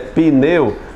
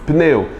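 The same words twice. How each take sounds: First: An extra i vowel is heard after the p. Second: The p joins the n with no vowel between. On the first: This is how people normally say it. "Por mais que eu tenha um i fonético aqui, a gente pessoal diz" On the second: Saying it this way would take effort. "Você não faz isso, até teria que fazer esforço para pronunciar isso aí"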